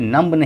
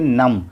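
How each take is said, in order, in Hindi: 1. m के बाद b की आवाज़ बोली जाती है। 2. शब्द m पर खत्म होता है, b नहीं। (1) "इसे नम्ब नहीं पढ़ेंगे" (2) "बी साइलेंस होगा, इसे हम पढ़ेंगे नम"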